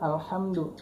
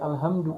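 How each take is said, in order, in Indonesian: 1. Bunyi h-nya kuat dan berdesah di tenggorokan. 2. Bunyi h-nya ringan dan biasa saja. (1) "harusnya kan alhamdu" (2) "dia baca alhamdu"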